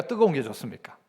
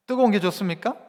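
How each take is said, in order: First: 뜨거운 stressed, whole question much softer and lower, falling at the end; 뜨거운 said low and soft with a falling close; quiet falling question. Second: 뜨거운 stressed at normal level, question rising at the end. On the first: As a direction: drop your voice low on 뜨거운 게 좋습니까 and let it fall. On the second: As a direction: ask 뜨거운 게 좋습니까 back up to the room with a rise. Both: Shown as a demonstration.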